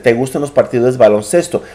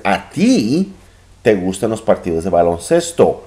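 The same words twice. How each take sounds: First: Said in the usual way. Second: "A ti" raised, the rest of the question quick; stress on a ti. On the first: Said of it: "if I said it just the opposite". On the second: Shown as a demonstration. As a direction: lean on "A ti" to emphasize who. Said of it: "Then I would be emphasizing".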